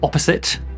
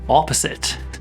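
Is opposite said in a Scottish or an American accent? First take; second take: Scottish; American. First: It has a short Scottish-style vowel. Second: It has a longer American-style vowel.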